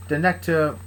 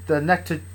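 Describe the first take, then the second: No difference in how they are said.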